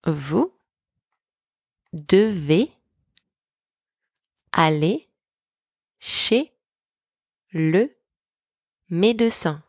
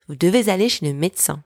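First: Each word on its own, long pauses between; teacher's slow dictation for repeating. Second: Said in the usual way. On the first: Shown as a demonstration. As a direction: spell out the sentence one word at a time. Word-by-word breakdown for repetition.

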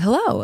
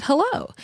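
First: A retold caller's hello, only slightly lower in tone; the mystery caller's greeting, lightly voiced; deep male voice. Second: A higher, softer hello on the phone; picking up the phone, unsure who's calling; her own answer. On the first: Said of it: "this deep voice said". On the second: Retold or imitated.

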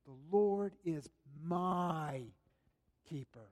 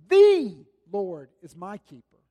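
First: Personal, sinking confession; emphasis on each word. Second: "The Lord is my keeper" with a loud lean on "The"; loud emphatic "The Lord is my keeper"; emphasis on each word. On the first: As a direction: let "keeper" sink to a hush. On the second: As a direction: declare it, word by word. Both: Shown as a demonstration. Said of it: "placed emphasis on each individual word".

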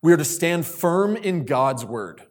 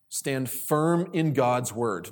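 First: Said in the usual way. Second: Slow emphatic repeat. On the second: Shown as a demonstration. Repeats point slowly for emphasis.

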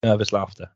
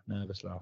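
First: Said in the usual way. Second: Almost breathed under the voice; nearly silent. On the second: Shown as a demonstration. Repeating the phrase to himself, far softer. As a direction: drop it right down to nothing. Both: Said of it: "just say it's nervous laughter".

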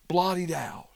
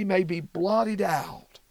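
First: Whispered echo of "blotted out", breathy and unvoiced. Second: Said in the usual way. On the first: Shown as a demonstration. Bible teacher echoing David's plea to the listeners, whispered. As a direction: let "blotted out" drop to a hushed whisper, for weight.

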